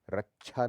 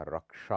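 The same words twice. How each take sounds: First: रक्षा said as rachchha; chh for ksh. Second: Said in the usual way. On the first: Shown as a demonstration. Teacher shows the error, रक्षा with chh. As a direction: swap क्ष in रक्षा for chh. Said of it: "नहीं होता". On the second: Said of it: "होता है".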